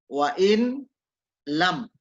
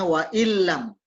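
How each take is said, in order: First: Each word is said separately with the n kept. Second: The words run together, the n merging into l. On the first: "kita baca kasih baca perpotong ya" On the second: "tapi kalau bacanya wa illam"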